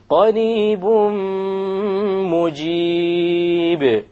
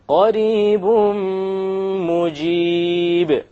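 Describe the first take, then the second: First: The n sound merges into the nasal m. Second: The n sound merges into the nasal m.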